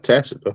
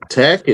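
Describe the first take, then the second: First: The middle consonant is a soft s sound. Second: The middle consonant is a hard k sound. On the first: The speaker calls it right. "not tacit" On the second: The speaker calls it wrong. "tack tack it tack tack it agreement"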